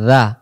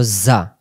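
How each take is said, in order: First: "জা" as a voiced th from the tongue tip; soft dhal. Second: "জা" as a buzzing z. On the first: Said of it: "জিহ্বার আগা থেকে নরম করে". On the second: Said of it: "এটা হলো". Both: Shown as a demonstration.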